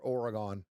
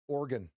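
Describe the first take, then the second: First: The word is said with three syllables. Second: The word is said with two syllables. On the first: The speaker calls it wrong. "Some people call it Oregon or Oregon" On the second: The speaker calls it right. "Here's how you pronounce it. It's two syllables"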